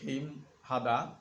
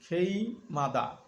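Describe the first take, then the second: First: The h is pronounced clearly before hada. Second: The h is dropped, linking m into mada. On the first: "যারা একটু কাঁচা আছেন তারা বলবেন খেইম হাদা" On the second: "নিয়মটি হিয়তের কাছে গিয়ে উচ্চারণ হবে খেই মাদা"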